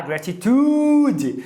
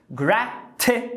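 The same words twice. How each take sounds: First: Gratitude with a full clear i, the tempting wrong way; full-vowel gratitude. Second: Gratitude said slowly with the middle i as a schwa. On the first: Teacher showing the spelling-led gratitude. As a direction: say gratitude as written. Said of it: "você quer falar gratitude". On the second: Teacher modeling gratitude with a schwa. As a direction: say gratitude with a weak middle vowel. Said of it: "Eu sei que você quer falar gratitude". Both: Shown as a demonstration.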